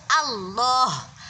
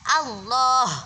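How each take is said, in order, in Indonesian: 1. Vokal pertama adalah a yang terbuka penuh. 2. Vokal pertama adalah a yang terbuka penuh.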